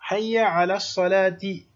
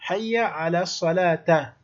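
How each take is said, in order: First: The last word ends with an i vowel. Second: The last word ends with an a vowel. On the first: The speaker calls it right. "o correto seria Hayya ala salati majrur" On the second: The speaker calls it wrong. "está errado"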